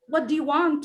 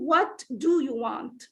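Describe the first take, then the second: First: The word do is reduced and weak. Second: The word do is full and stressed. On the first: The speaker calls it right. "The first to do is weak, unstressed" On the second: The speaker calls it wrong. "So I can't say"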